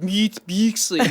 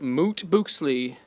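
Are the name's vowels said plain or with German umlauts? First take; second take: umlauts; plain. First: The vowels are fronted like German umlauts. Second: The vowels are plain English oo sounds.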